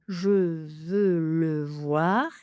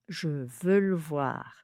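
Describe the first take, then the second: First: Every vowel is pronounced, giving four syllables. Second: One vowel is dropped, giving three syllables. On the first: "quatre syllabes" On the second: "trois syllabes"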